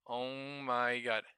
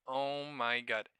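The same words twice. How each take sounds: The two takes are said the same way.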